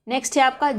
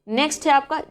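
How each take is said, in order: Both takes have the same delivery.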